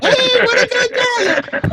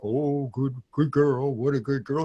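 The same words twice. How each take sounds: First: Very high, loud, drawn-out dog praise; squealing happy trainer demo; really happy. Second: Half-hearted, make-believe dog praise; not happy enough. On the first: Shown as a demonstration. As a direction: gush over the dog at full, over-the-top joy. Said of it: "You gotta get happy". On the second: Retold or imitated. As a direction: imitate a client faking happiness in an everyday pitch. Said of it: "they're just never happy enough".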